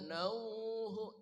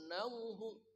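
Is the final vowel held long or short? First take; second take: long; short. First: The final vowel is held for a long time. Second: The final vowel is cut short quickly. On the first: The speaker calls it wrong. "enggak boleh nauhu, itu dua harokat" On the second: The speaker calls it right. "jadi langsung nauhu"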